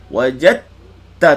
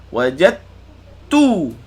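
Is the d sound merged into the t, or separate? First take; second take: merged; separate. First: The d merges fully into the t sound. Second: The d is heard separately before the t. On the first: The speaker calls it right. "idgham kamil. Wajad ta terus" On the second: The speaker calls it wrong. "Jangan sebut wajad, ha, tu dal. Wajad tu, ha, tu muncul"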